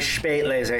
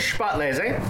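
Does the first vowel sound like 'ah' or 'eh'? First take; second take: eh; ah. First: The first vowel sounds like 'eh', with umlaut. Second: The first vowel sounds like 'ah', without umlaut. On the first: The speaker calls it right. "You're right, that'd be Spätlese" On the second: The speaker calls it wrong. "Is there an umlaut above the A in Spätlese?"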